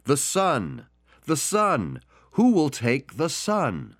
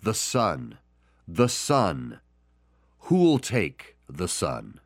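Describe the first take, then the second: First: Higher, slow, drawn-out auction call; raised auctioneer calling out the son. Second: Solemn message. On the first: Acted. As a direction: keep offering the painting to a deaf room. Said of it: "the auctioneer continued". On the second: Shown as a demonstration. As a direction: offer the son to the listener. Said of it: "his message today is".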